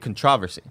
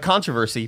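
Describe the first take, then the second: First: The word has a British pronunciation. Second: The word has a usual American pronunciation. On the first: "but they say controversy" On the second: "Like controversy"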